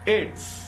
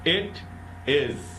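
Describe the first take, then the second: First: The words are merged into one short syllable. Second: Both words are said fully and separately.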